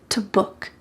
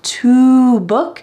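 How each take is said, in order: First: The word 'to' is cut to a t sound. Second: The word 'to' has a clear oo vowel. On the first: "we cut off the O in the word to and just keep the t sound" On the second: "which is very clear and it has a oo sound"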